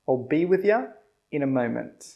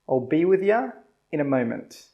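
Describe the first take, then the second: The two takes are said the same way.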